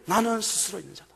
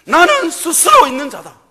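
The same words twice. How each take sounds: First: Suddenly softer, reverent, with weight on 나는; hushed God's voice. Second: God's voice. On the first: Preacher quietly repeating God's words, hushed and reverent. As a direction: let it drop to a solemn hush. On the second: God declaring himself to Moses, loud and solemn. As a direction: proclaim it as God speaking. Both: Acted.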